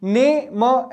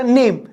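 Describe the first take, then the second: First: ने and म said as separate sounds; two detached beats, ने then म; wrongly split in two. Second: Said in the usual way. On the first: Shown as a demonstration. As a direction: break the word into ने, pause, म. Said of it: "ऐसा नहीं बोल सकता". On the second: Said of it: "directly it's one sound".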